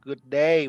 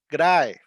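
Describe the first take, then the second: First: Said in the usual way. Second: Loud Aussie "G'day", first vowel swallowed; punchy Australian "G'day"; Australian slang greeting. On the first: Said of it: "Can you guess g'day mean". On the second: Shown as a demonstration. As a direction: say "G'day" Australian, "day" like "die". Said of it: "Australian used to".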